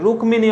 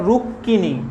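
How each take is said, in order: First: The m after k is clearly sounded. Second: The k is doubled and the m is not sounded. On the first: This is the Sanskrit pronunciation. "রুক্মিণী হবে সংস্কৃতর ক্ষেত্রে" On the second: This is the Bengali pronunciation. "বাংলাতে এর উচ্চারণ হচ্ছে রুক্মিণী"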